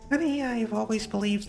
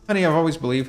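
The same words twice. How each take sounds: First: It is said in a put-on character voice. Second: It is said in a normal speaking voice.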